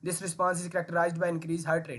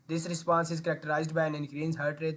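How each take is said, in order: First: It is rushed and uneven, with words blurred. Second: It is steady and smooth, with words clearly said. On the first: The speaker calls it wrong. "ये होती है speed. ... ना pronunciation बोली है ... ना ही एक मैंने flow maintain किया" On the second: The speaker calls it right. "ये वो स्पीड है, ये वो फ्लो है"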